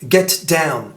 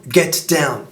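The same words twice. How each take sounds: Both takes have the same delivery.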